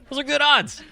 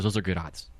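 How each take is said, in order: First: Much higher, emphatic repeat; high-pitched insistence. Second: Said in the usual way. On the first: Real, not acted.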